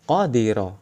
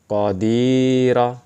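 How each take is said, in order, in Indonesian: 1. Vokal tengah dibaca pendek. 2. Vokal tengah dibaca panjang. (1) "Cara membacanya seperti itu" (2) "ketika ada iya sukun, pasti dibaca panjang"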